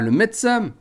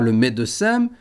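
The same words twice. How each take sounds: First: The middle e is dropped. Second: The middle e is pronounced. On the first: The speaker calls it wrong. "et pas" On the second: The speaker calls it right. "On dira"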